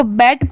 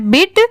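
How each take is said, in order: First: बैट with an open ai vowel; standalone reading. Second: बिट with a short i vowel; reading within between. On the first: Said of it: "इसको बैट पढ़ते". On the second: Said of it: "pronunciation है बिट". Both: Shown as a demonstration.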